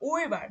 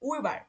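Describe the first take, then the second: No difference in how they are said.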